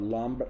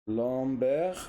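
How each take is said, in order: First: The name has an English pronunciation. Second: The name has a non-English pronunciation. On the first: The speaker calls it wrong. "and not Lambert, Lambert the way they name him, named him in England" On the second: The speaker calls it right. "I suppose that's how it's pronounced"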